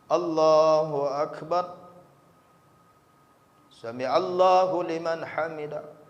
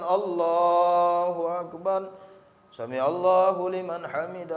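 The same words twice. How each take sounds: First: There is a brief stop between the phrases. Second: The phrases are rushed together with no stop. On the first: The prayer is done with the required stillness. The speaker calls it right. "Tumakninah itu berhenti sejenak" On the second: The prayer lacks the required stillness. The speaker calls it wrong. "di mana tumakninah?"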